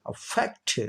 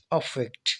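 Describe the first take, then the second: First: affect with a light अ and high fact; stress on fact of affect. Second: affect as a noun, weight on अ, fact relaxed; stress on अ of affect. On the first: Teacher shows the verb form, second-syllable stress on affect. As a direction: shift the weight onto fact in affect. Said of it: "अब stress आगे shift हो". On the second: Teacher repeats the noun for students, first-syllable stress on affect. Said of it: "ए को ज़्यादा जोर लगाया". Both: Shown as a demonstration.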